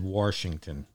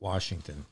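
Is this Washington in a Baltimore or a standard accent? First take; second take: Baltimore; standard. First: It is said in a Baltimore accent. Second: It is said in a standard accent. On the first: "I said Washington" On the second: "not Washington"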